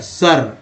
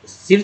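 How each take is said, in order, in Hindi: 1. स्वर सामान्य 'uh' जैसा है। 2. स्वर छोटे 'i' जैसा है। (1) "सर यानी अउच्चारित किया जा रहा है" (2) "सर में आई का उच्चारण सिर थोड़ी हो रहा है"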